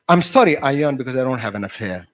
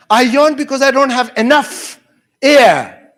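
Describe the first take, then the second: First: "enough hair" run together quickly so it blurs toward "an affair"; slurred quick apology. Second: "enough air" loud, high, with "air" split off after a pause; emphatic clarification. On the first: Student apologizing to the teacher for yawning, quick slurred "enough hair". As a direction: rush "enough hair" into one blurred phrase. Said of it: "mispronouncing words or mishearing words".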